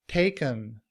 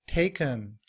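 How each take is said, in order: Both takes have the same delivery.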